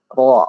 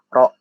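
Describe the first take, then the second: First: The r is said heavy and thick. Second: The r is said light and thin. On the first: The speaker calls it right. "Ro itu harus harus dibaca tebal" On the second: The speaker calls it wrong. "Nggak boleh ro"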